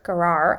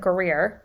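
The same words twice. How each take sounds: First: Gerar said as "guh-RAR"; alternate pronunciation. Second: Gerar said as "guh-REER"; alternate pronunciation. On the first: Offering another pronunciation of the country, Gerar as "guh-RAR". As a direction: say Gerar with an "ar" ending. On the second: Unsure how to pronounce the country, trying Gerar as "guh-REER". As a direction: say Gerar with an "eer" ending. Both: Shown as a demonstration. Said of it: "how you wanna pronounce that".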